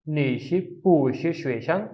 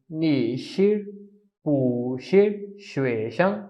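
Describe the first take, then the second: First: नी शिर पू शिर श्वेशं in one smooth run, पू rising; Mandarin at speed. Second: पू शिर श्वेशं said slowly, पू in second tone; slow Mandarin. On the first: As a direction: say नी शिर पू शिर श्वेशं at normal pace. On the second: Teacher showing the changed tone on पू slowly. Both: Shown as a demonstration. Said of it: "इसकी pronunciation कुछ यूँ होगी".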